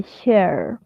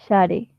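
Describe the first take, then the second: First: "share" slowly as one syllable, SHER; "share" with a silent final e; English pronunciation. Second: "share" read as spelt, SHA-re; "share" in two Spanish syllables; spelling pronunciation. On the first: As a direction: say "share" the English way, drawn out like "sherr". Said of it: "Y se dice share". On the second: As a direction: sound out the final e of "share": "sha-re". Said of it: "y se escribe share". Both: Shown as a demonstration.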